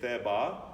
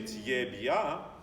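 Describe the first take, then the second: First: The t and b are hard, not palatalized. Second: It is said with an American accent. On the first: The word is not understood. "I have no idea what that is" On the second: The word is understood despite the accent. "I hear an accent, but I understand"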